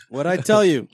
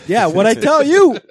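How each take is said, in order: First: Said in the usual way. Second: High, loud, drawn-out boast; loud crowing. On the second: Real, not acted. Bruins fan claiming he called it, loud crowing. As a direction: crow it slowly with a laugh. Crowing over being proved right.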